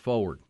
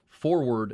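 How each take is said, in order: First: The R sound in the first syllable is dropped. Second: The R sound in the first syllable is pronounced. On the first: The speaker calls it wrong. "not forward. Yeah, I did tend to not pronounce the R when I say forward" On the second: The speaker calls it right. "it's forward"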